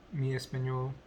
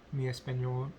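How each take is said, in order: Both takes have the same delivery.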